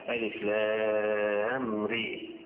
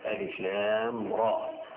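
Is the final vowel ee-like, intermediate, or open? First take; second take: ee-like; open. First: The final vowel is raised close to 'ee'. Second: The final vowel is fully open, like 'aa'. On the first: "الاماله ري" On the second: "من غير لا إمالة ولا تقليل"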